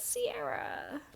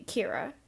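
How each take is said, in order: First: The name begins with an S sound. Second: The name begins with a K sound. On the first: This is how people in America tend to say it. The speaker calls it wrong. "it gets said as Sierra because the U S loves mispronouncing things" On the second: This is how the owner of the name says it. The speaker calls it right. "pronounce it the correct way"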